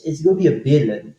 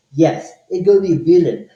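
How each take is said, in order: First: Said in the usual way. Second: Louder, punchier "Yes, it's gonna be a billion"; emphatic repeat. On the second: Real, not acted. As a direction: hit "gonna" hard on the repeat.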